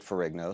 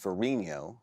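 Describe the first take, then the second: First: The name is said with American pronunciation. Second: The name is said with Italian pronunciation. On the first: This is how the bearer says his own name. "he pronounces it Ferrigno ... It's an Americanized pronunciation" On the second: This is how the name should be said by origin. "should be pronounced Ferrigno, uh, the Italian way"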